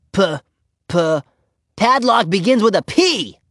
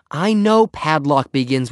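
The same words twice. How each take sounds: First: Put-on high little-girl voice, proud discovery; triumphant. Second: Slow, mildly exasperated reply. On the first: Ramona shows off her letters to Henry, triumphant. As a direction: crow it like a child who just worked it out. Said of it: "she said triumphantly". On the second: Henry answers Ramona after a groan, mildly exasperated. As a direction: concede it slowly, with a touch of impatience. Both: A narrator's reading.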